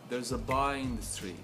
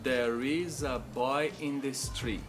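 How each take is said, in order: First: Stress falls only on boy and street. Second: Every word gets roughly equal stress. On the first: The speaker calls it right. "enfatizando as duas palavras mais importantes" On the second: The speaker calls it wrong. "o aluno aprende a pronunciar essa frase da seguinte forma"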